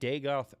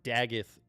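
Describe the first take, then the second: First: The second syllable sounds like 'goth'. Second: The second syllable sounds like 'gith'. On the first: The speaker calls it right. "that's how you say it" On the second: The speaker calls it wrong. "the most terrible pronunciation I've heard in my life"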